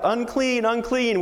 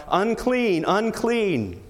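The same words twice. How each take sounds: First: Much higher, ringing call of unclean; pretend warning cry. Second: High, falling call of unclean; leper's cry. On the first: Infected person in lockdown warning others off, high ringing cry. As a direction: call out a warning so people keep away. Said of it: "infected people had to cry out". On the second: Acted. Leper warning people away from him, high falling cry. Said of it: "cry out, 'Unclean, unclean.'".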